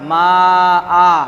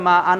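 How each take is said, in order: First: The word ends with a drawn-out long vowel. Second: The word ends with a short vowel and n. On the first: The reader stops on this word. "এখানে যদি ওয়াকফ করি, থামি ... তাহলে মা আ পড়তে হবে" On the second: The reading continues into the next word. "যদি মিলি পড়া হয় পরের শব্দকে একদমে, তাহলে ওর যে উচ্চারণ আন ইন উন"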